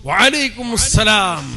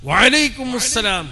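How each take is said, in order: No difference in how they are said.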